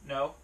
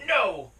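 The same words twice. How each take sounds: First: It is said calmly, like a plain answer. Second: It is said sharply and rudely. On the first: It simply answers a question politely. The speaker calls it right. "that is the tone of voice you should be using when you tell your dog no" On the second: It is a rude, forceful refusal. The speaker calls it wrong. "that is extraordinarily rude"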